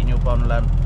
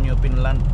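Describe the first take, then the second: First: The middle syllable sounds like 'found'. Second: The middle syllable sounds like 'fin'. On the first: The speaker calls it wrong. "hindi New Foundland" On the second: The speaker calls it right. "tama nga siguro New Finland"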